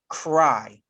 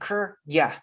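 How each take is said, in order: First: The word ends with a long eye vowel. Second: The word ends with a consonant y sound. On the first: The speaker calls it right. "We say cry" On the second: The speaker calls it wrong. "we don't say cr yeah, mm, that's wrong"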